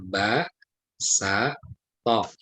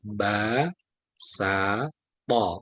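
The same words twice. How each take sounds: First: Each syllable ends with a glottal stop. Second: Each syllable ends openly without a glottal stop. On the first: The speaker calls it wrong. "tidak dibaca ba, sa, to" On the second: The speaker calls it right. "tapi ba, sa, to"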